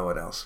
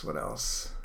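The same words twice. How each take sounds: First: Said in the usual way. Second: Whispered to himself; whispering. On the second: Real, not acted. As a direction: whisper it under your breath.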